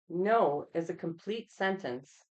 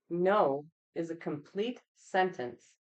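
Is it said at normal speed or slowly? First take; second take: normal; slowly. First: It is said at a normal pace. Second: It is said slowly and deliberately.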